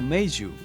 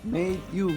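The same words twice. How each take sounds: First: The d and y merge into a j sound. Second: The d and y are said separately.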